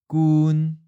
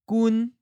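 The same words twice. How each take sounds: First: It is said with the seventh tone. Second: It is said with the first tone. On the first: "The seventh tone" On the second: "And that's the first tone"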